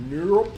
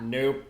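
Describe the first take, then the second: First: Nope, higher and louder. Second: Said in the usual way. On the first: Shown as a demonstration. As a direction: call Nope up high and loud. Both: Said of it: "Probably not".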